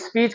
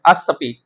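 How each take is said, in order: First: The word starts directly with an s-p cluster. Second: The word starts with an added a vowel. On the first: "ये स्पीच का लफ्ज अंग्रेजी में भी बोला जाता है" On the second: "जब ये उर्दू के अंदर राइज होगा फिर अस स्पीच बन जाएगा"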